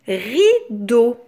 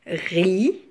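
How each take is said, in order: First: Said in the usual way. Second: "Rideau" broken as ri, long pause, do; split into syllables. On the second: Shown as a demonstration. Teacher counting syllables for children, "Rideau" split ri... do. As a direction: separate "Rideau" into two drawn-out beats. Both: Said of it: "Deux syllabes".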